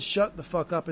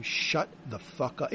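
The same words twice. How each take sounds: First: Said in the usual way. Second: Robber's threat. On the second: Retold or imitated. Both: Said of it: "in the way that someone robbing you says".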